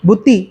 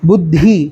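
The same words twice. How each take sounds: First: The middle consonant is plain, without breathiness. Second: The middle consonant has a breathy release. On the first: The speaker calls it wrong. "யூஸ்வலா எப்படி சொல்லுவோம்? ... தப்பு" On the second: The speaker calls it right. "அப்போ இது வந்து நாலாவது தி"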